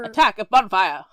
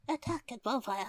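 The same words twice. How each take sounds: First: It is said big and loud. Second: It is said small and quiet.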